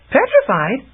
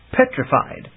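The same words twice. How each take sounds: First: "Petrified?" asked high with a rising lift; wondering. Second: Said in the usual way. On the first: Acted. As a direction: echo "Petrified?" in disbelief. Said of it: "Chameleon wondered".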